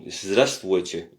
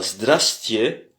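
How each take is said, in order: First: The greeting is said in its full form. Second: The greeting is said in a shortened form. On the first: It is a very formal greeting. "Il y a trois syllabes" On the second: It is a less formal greeting. "c'est une façon un peu euh, raccourcie"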